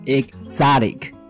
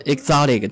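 First: The word is said with an R-like sound. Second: The word is said with an O-like vowel. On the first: The speaker calls it right. "你要读的是exotic。R 的音，不要发成O 的音" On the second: The speaker calls it wrong. "我读成了exotic，但是可能是我是错的"

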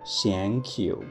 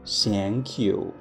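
The two takes are said the same way.

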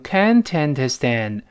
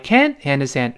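First: Can't links straight into understand without a break. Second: Can't is stressed, then a brief pause follows. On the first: The speaker calls it wrong. "不要连读成can't understand，不这么读" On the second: The speaker calls it right. "要稍微有个停顿，所以它不连读了而发生了失爆"

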